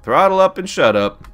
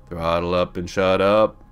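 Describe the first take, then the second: First: Loud, high-pitched order to yourself; high, loud playful command; mock self-command. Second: Slow, settled repeat of an order; unhurried, measured muttering to yourself; deliberate self-command. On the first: Repeats own command to himself. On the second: Acted. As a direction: draw the order out slowly. Same command repeated, dropped and slower.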